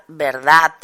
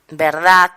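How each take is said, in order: First: Verdad with a soft voiced D at the end; final D kept soft. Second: Verdad ending in a hard T, "verdat"; Catalan-style verdad with a crisp final T. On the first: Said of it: "en lugar de decir". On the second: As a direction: harden the last sound of verdad to a voiceless t. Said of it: "articula como sorda". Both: Shown as a demonstration.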